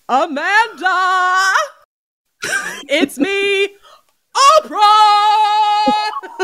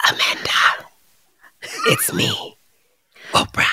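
First: High, drawn-out sing-song Oprah; Oprah impression. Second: Creepy whispered rat voice, soft and eerie; ominous whisper. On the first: Asked to replay the rat's voice as Oprah. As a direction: croon it like a talk show host. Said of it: "If I did it like Oprah". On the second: Pretend. Rat ghost scratching at the bedroom door, whispering ominously. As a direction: breathe it through the bedroom door. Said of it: "ominously whispering".

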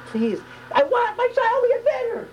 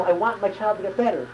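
First: Very high, drawn-out desperate plea; passionate scream. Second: Said in the usual way. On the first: Shown as a demonstration. Parent begging for a sick child, passionate scream. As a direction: cry it out slowly from the depths. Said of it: "It's a scream, it's a passion". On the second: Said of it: "It's not".

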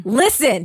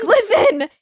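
First: Said in the usual way. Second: Listen. pushed higher and louder; exasperated urgent plea; urgent insistent repeat. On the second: Retold or imitated. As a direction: insist harder the second time. Insisting again, more urgently.

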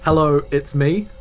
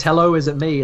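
First: Confident hello. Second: Timid hello. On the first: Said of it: "one that's more confident". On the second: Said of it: "there's one version that says". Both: Shown as a demonstration.

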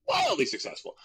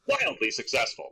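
First: Wildly pitched very high for emphasis; emphatic "wildly"; stress on wildly. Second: Said in the usual way. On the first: Shown as a demonstration. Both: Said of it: "like, wildly successful".

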